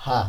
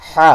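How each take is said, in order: First: "হা" light and thin, throat relaxed; thin natural sound. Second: "হা" pressed from the throat, thick; thick throaty sound. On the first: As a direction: say "হা" thinly in the natural voice. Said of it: "আওয়াজ চিকন হবে". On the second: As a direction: squeeze the throat and make "হা" heavy. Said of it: "গলাকে চাপিয়ে". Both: Shown as a demonstration.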